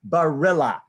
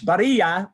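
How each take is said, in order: First: The name is said with an American pronunciation. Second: The name is said with a Spanish pronunciation. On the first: "but Americanized, it's [name]"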